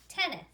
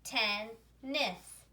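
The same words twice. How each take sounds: First: Said in the usual way. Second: "ten, nis" as two separate syllables; each syllable of "ten, nis" said on its own. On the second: Shown as a demonstration. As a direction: pause between "ten" and "nis". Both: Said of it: "read one syllable at a time".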